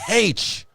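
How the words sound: The letter is said with an initial h sound. "H with a ha"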